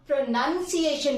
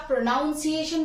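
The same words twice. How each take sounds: First: प्रोनंसिएशन said as pro-NUN-see-ay-shun; प्रोनंसिएशन with a short "uh" second syllable; "nun" version. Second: प्रोनाउंसिएशन said as pro-NOUN-see-ay-shun; प्रोनाउंसिएशन with an "ow" second syllable; "noun" version. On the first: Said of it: "प्रोनंसिएशन बोलना है". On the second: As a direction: put a clear "noun" inside प्रोनाउंसिएशन. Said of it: "इसे क्या". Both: Shown as a demonstration.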